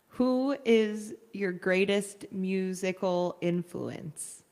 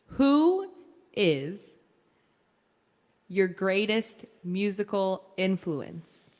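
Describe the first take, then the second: First: The words are spoken casually, without careful articulation. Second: Each word is articulated slowly and very clearly. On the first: The speaker calls it wrong. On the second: The speaker calls it right.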